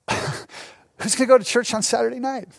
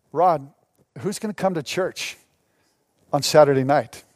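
First: Imitated scoffer, incredulous; mock disbelief after a laugh; laughing mockery. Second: Low, dry sceptical question; pitched down, halting between phrases; deadpan doubt. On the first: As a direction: toss it out as a derisive question. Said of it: "they would laugh at me". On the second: Retold or imitated. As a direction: imitate a doubting pastor, low with pauses. Retelling senior pastor's doubting reply.

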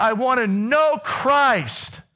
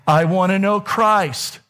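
First: "I wanna know Christ" much slower and higher, "know" stretched; second, bigger take of "I wanna know Christ"; climactic Paul quote. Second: Slowed, lifted I wanna know Christ with Christ drawn out; first take of "I wanna know Christ", slow and earnest; earnest Paul quote. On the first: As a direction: build the quote to its peak, drawing out "know". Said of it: "And he said". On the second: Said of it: "He says". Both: Retold or imitated.

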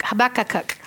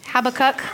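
First: "Habakkuk" with an extra "-uk" on the end; butchered pronunciation. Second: Said in the usual way. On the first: Shown as a demonstration. Preacher fumbles a prophet's name for the congregation, "Habakkuk" mispronounced with an added syllable. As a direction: stumble through "Habakkuk" as huh-BACK-uh-kuk. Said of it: "butchering the spell, the, the way we say it". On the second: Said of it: "I don't even know how you say it".

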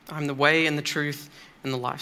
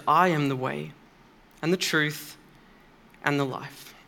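First: Said in the usual way. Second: "I am the way", pause, "and the truth", pause, "and the life" each phrase set apart; measured, weighty phrasing with pauses between "the way", "the truth" and "the life". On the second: Shown as a demonstration. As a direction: space out "I am the way", "and the truth", "and the life" with long breaks.

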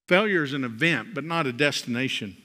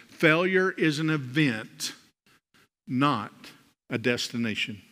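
First: Said in the usual way. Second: Slow emphasis. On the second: Shown as a demonstration. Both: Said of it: "I want you to see".

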